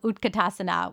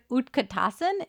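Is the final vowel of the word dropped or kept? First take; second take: kept; dropped. First: The word ends with the final vowel. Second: The word ends without the final vowel. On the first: "instead of utkatasana" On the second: "I think I said the word utkatasana"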